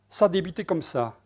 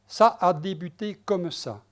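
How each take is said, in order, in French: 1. Les sons sont fusionnés, ce qui donne six syllabes. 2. Chaque syllabe est prononcée, ce qui donne huit syllabes. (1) "six syllabes" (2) "en prononçant toutes les syllabes. Ce serait un octosyllabe"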